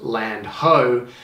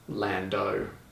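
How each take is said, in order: First: It is said as two separate words. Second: It is said as one blended word. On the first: The speaker calls it right. "correctly pronounced Land ho" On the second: The speaker calls it wrong. "commonly just spoken um, as Lando"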